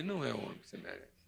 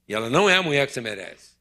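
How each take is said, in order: First: It is said in a merciful, gentle tone. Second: It is said in a harsh, pointed tone.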